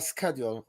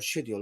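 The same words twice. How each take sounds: First: It is said with an American pronunciation. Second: It is said with a British pronunciation.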